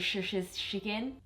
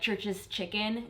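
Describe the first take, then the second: First: The ch sounds are changed and not said as ch. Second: The ch sounds are said as a clear ch. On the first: "I would say" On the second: "instead of saying"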